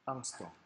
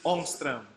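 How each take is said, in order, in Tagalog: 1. Binibigkas ito gamit ang simpleng patinig ng Ingles. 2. Binibigkas ito gamit ang bilog na patinig ng Swedish.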